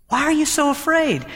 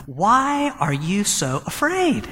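First: Much higher, stress on "you"; pointed, high-pitched rebuke; emphatic question. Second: Slow, gentle asking; slow, tender rebuke to frightened friends; gentle question. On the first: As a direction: lift the pitch and press "you". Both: Retold or imitated. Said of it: "and he says to them".

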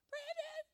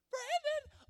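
First: Very high mock-mother falsetto call; Mary Beth. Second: Louder, very high falsetto mother call; Mary Beth. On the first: Friend's mother home from shopping, high falsetto call. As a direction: sing out in a squeaky imitated mother voice. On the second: Retold or imitated. Friend's mother calling down the hall, louder falsetto yell. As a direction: yell it in a squeaky mock-mother voice. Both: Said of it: "Mary Beth going".

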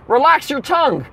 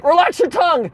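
First: Stewardess voice. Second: Doctor voice. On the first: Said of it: "she says". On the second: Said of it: "He's like". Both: Retold or imitated.

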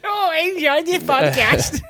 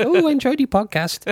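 First: High, slow and laughing through it; drawn-out mocking impression of her; mock listener voice, laughing. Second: High, far-off mocking impression of her; lightly imitating a bored woman; mock listener voice. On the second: Mimicking an unimpressed listener.

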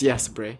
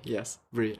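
First: Said in the usual way. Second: Much softer, lower murmured repeat of Brie. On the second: Real, not acted. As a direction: drop it to a hush. Answering a student twice.

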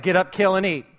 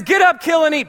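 First: Said in the usual way. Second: Higher and louder divine order; God commands Peter, loud and high; booming command. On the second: Acted. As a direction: bark it down from heaven.

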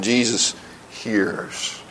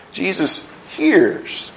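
First: Much softer, slow "Jesus hears", almost hushed; soft repeat. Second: Slow, weighty "Jesus hears", both words drawn out; slow emphatic. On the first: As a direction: drop the voice right down and let "hears" fade. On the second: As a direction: land "hears" slowly with a firm fall. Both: Shown as a demonstration.

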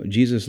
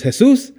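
First: Said in the usual way. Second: JESUS said the Spanish way, "heh-SOOS", as a high question; Jesus with an H sound, stressed on the rising last syllable; Spanish pronunciation. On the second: Retold or imitated. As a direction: imitate a puzzled coworker saying Jesus as "heh-SOOS". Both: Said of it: "his name's, uh, Jesus".

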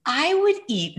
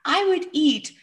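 First: A little boy, much higher, voiced, slowing down; child's voice. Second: Put-on the same child's line, much higher, in a whisper, holding back a laugh; whispered giggly child. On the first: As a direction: say it in the son's voice, on the edge of a grin. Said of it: "now he's smiling and almost laughing". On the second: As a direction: breathe it out as a whisper, almost laughing. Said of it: "smiling and almost laughing".

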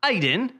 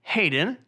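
First: "Aiden" for Hayden, no H; British-accented "Aiden", H left off; dropped H. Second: "Hayden" with a clear H; slower "Hayden", starting on a clear H; H pronounced. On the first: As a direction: call the name as "Aiden", H missing. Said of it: "No, it's Hayden". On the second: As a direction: correct the name, sounding H in "Hayden". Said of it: "Pronounce your H's". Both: Acted.

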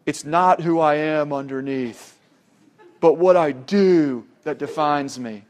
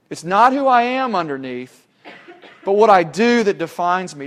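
First: Gruff Batman impression. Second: Said in the usual way. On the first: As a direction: imitate a real gruff movie-hero growl, deliberately. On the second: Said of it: "says in that real gruff voice".

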